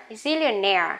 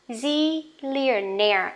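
First: Zillionaire at normal speed, stress on -naire; normal speed word. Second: Zillionaire said slowly, stress on -naire; slow model word. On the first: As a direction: say Zillionaire naturally. (đọc Zillionaire bình thường) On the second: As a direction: stretch Zillionaire for learners. (đọc chậm Zillionaire) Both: Shown as a demonstration. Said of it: "đều nhấn vào chính cái âm này".

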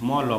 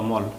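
First: ম and ল as two open sounds; letter by letter. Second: মল blended into one syllable; read joined. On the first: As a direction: say ম and ল separately. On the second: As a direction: close ম with the ল, no vowel after. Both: Shown as a demonstration. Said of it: "একসঙ্গে কি করেছি".

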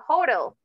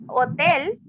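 First: English "hotel" as a Spanish-speaking teacher says it; "hotel" in English, the T softened to a quick tap; English pronunciation. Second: Spanish "hotel" with no H sound; "hotel" opening on a pure vowel, stressed on the last syllable; silent H. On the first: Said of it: "En inglés es hotel". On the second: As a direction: say "hotel" the Spanish way, starting straight on the O. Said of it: "la H no está pronunciada". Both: Shown as a demonstration.

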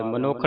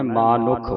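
First: ਮਨੁੱਖ with short first vowel, "manukkh"; wrong short vowel. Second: ਮਾਨੁਖ with long "maa", short "nukh"; long first vowel. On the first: Teacher showing the congregation's misreading, ਮਨੁੱਖ with short "ma". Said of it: "ਨਹੀਂ ਪੜਨਾ ਇਹਨੂੰ". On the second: Teacher modelling for the pupil to repeat, ਮਾਨੁਖ with long "maa". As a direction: stretch the first syllable of ਮਾਨੁਖ. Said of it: "ਮੰਮੇ ਨੂੰ ਕੰਨਾ ਲਾ ਕੇ". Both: Shown as a demonstration.

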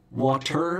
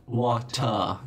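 First: "water" with the final R fully sounded; American-style R closing "water"; rhotic R. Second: "water" ending in an open "ah", no R; "water" said as "wah-tah"; non-rhotic R. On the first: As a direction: curl into a clear R at the end of "water". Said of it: "the rhotic R". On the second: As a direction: drop the R at the end of "water". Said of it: "And rhoticity". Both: Shown as a demonstration.

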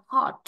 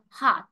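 First: "hot" with a short, rounded British O. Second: "hot" with an open, long American "ah". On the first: Teacher showing students British English, "hot" with short O. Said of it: "người ta chỉ học tiếng Anh Anh". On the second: Teacher showing students American English, "hot" with long ah. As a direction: say "hot" as "haht", American style. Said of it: "tiếng Anh Mỹ thì người ta lại phiên âm thành A dài". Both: Shown as a demonstration.

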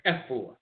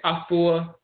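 First: "Efua" with eh first, eh-FOO-ah; Fanti pronunciation. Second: "Afua" with ah first, ah-FOO-ah; Asante pronunciation. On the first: Lecturer giving the Fanti form, "Efua" as eh-FOO-ah. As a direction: begin "Efua" on eh. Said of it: "the Fanti say". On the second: Lecturer contrasting dialects, "Afua" as ah-FOO-ah. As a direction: draw out "Afua" from an open ah. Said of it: "You say Afua". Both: Shown as a demonstration.

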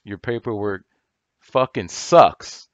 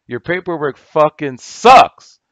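First: Slow, punched "fucking sucks" with rising force; emphatic. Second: Much louder, higher and slower, a real yell; angry shout. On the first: Calling out a rival's paperwork, emphatic and slow. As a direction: lean hard on "fucking" and drag "sucks" out slow. Angry rant at rival gurus. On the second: Repeating the insult to the rival guru, now shouting. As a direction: blow up and yell it at him. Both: Real, not acted.

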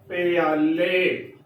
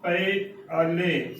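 First: ਪਿਆਲੇ said slowly as one glided word, pyale; ਪਿਆਲੇ drawn out as pyale, demonstrating the error; wrong pronunciation. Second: ਪਏ ਆਲੇ said slowly as two clear parts, pae then aale; ਪਏ ਆਲੇ spelled out slowly in two separate halves; slow correct pronunciation. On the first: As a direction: slowly show the common mistake ਪਿਆਲੇ with p and y merged. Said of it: "ਬਹੁਤ ਹੀ ਗਲਤ ਉਚਾਰਨ". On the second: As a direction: draw out ਪਏ, a pause, then ਆਲੇ. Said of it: "ਸੋ ਏਦਾਂ ਉਚਾਰਨ ਕਰਨਾ ਹੈ". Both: Shown as a demonstration.

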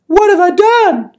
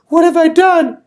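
First: High, loud and drawn-out wail; slower pleading. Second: High, loud desperate plea; pleading. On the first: Missus Molasses repeating her plea, slower and higher. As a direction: stretch it out, begging harder. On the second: Missus Molasses pleading before the king, high and desperate. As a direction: beg the king for mercy, frantic. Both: Acted. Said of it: "She kept pleading".

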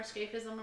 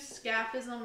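First: "scaphism" as SKAYF-ism, a as in cape; long-a pronunciation. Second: "scaphism" as SKAF-ism, a as in cat; short-a pronunciation. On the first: Co-host hedging on the name, "scaphism" said SKAYF-ism. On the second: Co-host naming the Persian torture, "scaphism" said SKAF-ism. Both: Shown as a demonstration. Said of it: "or scaphism or whatever".

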